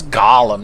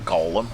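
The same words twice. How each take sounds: First: "Gollum" with an open "ah" in the first syllable; Gollum with short vowel. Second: "Golem" with a long "oh" in the first syllable. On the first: Golem correcting the name, "Gollum" said GAH-lum. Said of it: "not Golem". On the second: Golem correcting the name, "Golem" said GOH-lum. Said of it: "That's Gollum, not Golem". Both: Acted.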